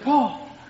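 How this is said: It is called with anxious worry.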